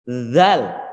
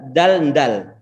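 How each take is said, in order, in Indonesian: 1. Dimulai dengan bunyi th lembut. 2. Dimulai dengan bunyi d keras. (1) "Ini bukan dal tapi zal" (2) "sebagian pengajar ataupun sebagian anak-anak mengucapkan dal dal"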